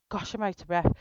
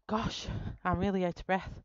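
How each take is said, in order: First: Panting, louder breathless remark; out of breath. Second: Out of breath. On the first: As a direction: gasp it out, still winded. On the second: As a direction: say it while recovering breath. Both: Real, not acted.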